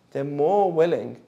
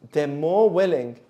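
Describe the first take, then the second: No difference in how they are said.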